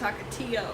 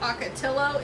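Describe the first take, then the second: First: The double L is said as a Y sound. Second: The double L is said as an L sound. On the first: The speaker calls it right. "it's yo" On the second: The speaker calls it wrong. "Not low"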